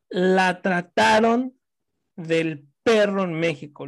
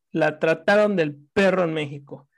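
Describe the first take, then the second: First: "trataron" stretched out slowly, a little louder; indignant emphasis. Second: Said in the usual way. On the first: Real, not acted. Telling a friend how her sister was treated, slow indignant stress on "trataron". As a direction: drag out "la trataron" to stress the outrage.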